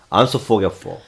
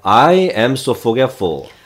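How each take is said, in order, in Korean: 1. 'I am'이 줄어 짧은 'am'이 됩니다. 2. 'I am' 두 단어를 따로 말합니다. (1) "더 확 뭉치면" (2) "I am so forgetful 이렇게 해도 되죠"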